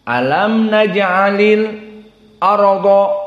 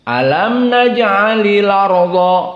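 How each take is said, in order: First: A brief silent stop comes before the glottal catch. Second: The glottal catch is dropped and the sounds join. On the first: "Ini saqt. ... Berhenti untuk isti'dad" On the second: "dipindahkan fathah ini kepada huruf sebelumnya ... Jadi larodo"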